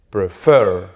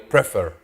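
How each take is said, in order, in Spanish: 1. El acento está en la última sílaba. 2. El acento está en la primera sílaba. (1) "Al final" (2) "Yo no digo prefer"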